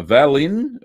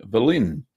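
First: Host trying the name Valin as VAL-in with a full open first vowel, drawn out and rising; reading the name Valin as VAL-in, first syllable like "pal", slow and questioning. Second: The name Valin said vuh-LIN, first vowel reduced, short and falling; correcting to Valin with a weak first syllable and settled falling tone; second try at a name. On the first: Host greeting a Facebook viewer, unsure how to say the name, VAL-in. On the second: Host retrying a viewer's name, settling on vuh-LIN. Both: Shown as a demonstration. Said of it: "I think that's how you pronounce it".

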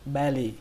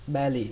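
Both takes have the same delivery.

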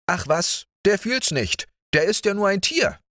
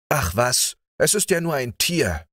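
First: High, fast, callous scoff; heartless dismissal. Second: Careless dismissal. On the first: Georg dismisses the dog's pain, high and heartless. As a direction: toss it off as coldly as possible. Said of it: "sagte so herzlos wie nur möglich". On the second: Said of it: "der Leichtsinn immer gleich die Antwort bereit". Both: A narrator's reading.

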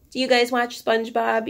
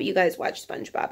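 First: Said in the usual way. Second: Unvoiced whisper to herself; whispered aside. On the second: Real, not acted. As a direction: breathe it as a secret aside.

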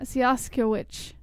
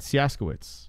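First: "Siaskiewicz" drawn out slowly, ending in a ch; "Siaskiewicz" slow, with final CZ as ch. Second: "Siaskiewicz" starting see-AS, ending in its; "Siaskiewicz" as a softer see-AS-kuh-its; silent K. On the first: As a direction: say "Siaskiewicz" as see-AS-ko-itch. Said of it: "C Z is a ch sound". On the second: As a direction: say "Siaskiewicz" with an opening S, no K. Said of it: "then maybe the K is silent". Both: Shown as a demonstration.

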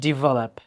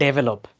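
First: Develop as "di-VA-lap"; correct pronunciation. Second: Develop as "DE-ve-lop"; wrong pronunciation. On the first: Teacher echoing the clip, correct pronunciation. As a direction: open Develop with "di". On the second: Teacher showing what not to say, mispronounced. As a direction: open develop with a short "de". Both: Shown as a demonstration. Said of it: "not develop".

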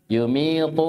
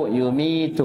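First: Heavy, dark final T in يميط; emphatic ṭā'. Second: Thin, front final T in يميت; light tā'. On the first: Teacher shows ṭā' at word end, emphatic T. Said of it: "طاء في آخر الكلمة". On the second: Teacher contrasts tā' at word end, light T. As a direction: end يميت on a plain dental T. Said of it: "فرقوا بين الطاء والتاء". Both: Shown as a demonstration.

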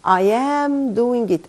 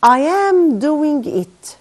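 First: I am doing it repeated slowly at normal pitch; slow calm repeat. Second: I am doing it read slowly and higher, every word stressed; slow emphatic model reading. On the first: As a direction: say it again slowly and evenly. (تكرار بطيء هادئ) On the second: (قراءة نموذجية بطيئة بصوت أعلى) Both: Shown as a demonstration. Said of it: "طيب،".

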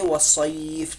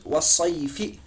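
First: वसईफ़ drawn out, closed on a bare f; stopped ending. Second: वसईफ़ी with the final "fee" sounded; full vowel ending. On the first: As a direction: stretch वसईफ़ and stop on f without a vowel. (वसईफ़ खींचकर, फा पर जज़म) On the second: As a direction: read वसईफ़ी through to the last i. (वसईफ़ी, फा के ज़ेर की आवाज़ के साथ) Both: Shown as a demonstration. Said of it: "लेकिन हम पढ़ेंगे वसईफ़".

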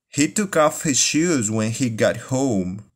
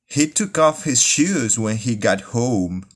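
The two takes are said the same way.

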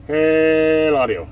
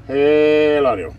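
Both takes have the same delivery.

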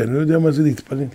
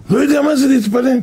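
First: Said in the usual way. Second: Incredulous repeat. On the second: Real, not acted. Preacher echoing the boy's words to the congregation, incredulous. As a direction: repeat it in disbelief.

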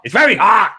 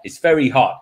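First: High, loud hammed-up complaint; mock exclamation. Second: Said in the usual way. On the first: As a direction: blurt it out higher and louder, exaggerated. Retelling, repeated with exaggerated emphasis.

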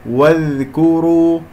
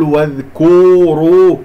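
First: Slow recitation with a light, unheavy kaf; correct recited demo. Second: واذكروا with the kaf thickened like the ra, louder; wrong heavy kaf. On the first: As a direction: recite واذكروا slowly, kaf kept thin and ra heavy. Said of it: "هكذا". (تلاوة «واذكروا» بكاف مرققة وراء مفخمة) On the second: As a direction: overdo a heavy, dark K in واذكروا. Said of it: "أفخم الكاف لأنها جاورت". (نطق خاطئ لـ«واذكروا» بتفخيم الكاف) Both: Shown as a demonstration.

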